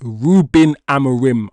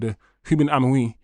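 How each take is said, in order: First: The name is said with a heavily English pronunciation. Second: The name is said with Portuguese-style pronunciation. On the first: "I'm gonna Anglo-Saxon your name to the max" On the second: "the YouTube post about how to pronounce the names"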